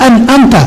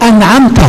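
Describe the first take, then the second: Both takes have the same delivery.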